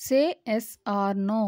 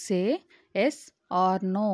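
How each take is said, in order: First: Said slowly and smoothly as one phrase; teacher saying the whole sentence slowly; slow model sentence. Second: "Say", "yes", "or no." each split off by a pause; teacher breaking the sentence into chunks for learners; word by word. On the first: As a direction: read "Say yes or no." slowly as a single phrase. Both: Shown as a demonstration. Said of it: "దీన్ని ఇంగ్లీష్లో ఏమనాలి?".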